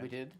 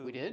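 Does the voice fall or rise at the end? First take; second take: falls; rises. First: The voice falls at the end. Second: The voice rises at the end.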